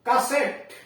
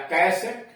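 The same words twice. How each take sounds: First: कैसेट with a short "kuh" first syllable; first pronunciation variant. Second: कैसेट with a full "kai" first syllable; alternative pronunciation. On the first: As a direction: say कैसेट as "kuh-SET", pitched high. (कैसेट का "कसेट" जैसा उच्चारण) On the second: (कैसेट का "कैसेट" उच्चारण, पहला स्वर पूरा) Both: Shown as a demonstration. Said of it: "या कैसेट".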